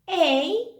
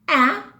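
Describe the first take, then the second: First: The vowel is said as a long sound. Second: The vowel is said as a short sound. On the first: "Now let's look at the long sounds" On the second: "let's see the short vowel sounds"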